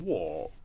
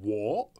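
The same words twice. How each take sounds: First: The pitch falls on the word. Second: The pitch rises on the word. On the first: "which is like the down one" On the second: "which is the up one"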